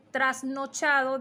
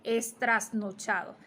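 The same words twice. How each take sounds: First: Said in the usual way. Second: Es trasnochado with es- added. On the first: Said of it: "en vez de decir trasnochado". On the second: Shown as a demonstration. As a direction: say estrasnochado. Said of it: "dicen es trasnochado".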